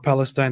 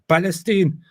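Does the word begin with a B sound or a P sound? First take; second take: P sound; B sound. First: The word begins with a P sound. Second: The word begins with a B sound. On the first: "if they try to say uh" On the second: "the lack of the P in Arabic makes them often pronounce it as a B"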